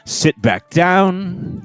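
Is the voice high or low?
low. It is said in a lower voice.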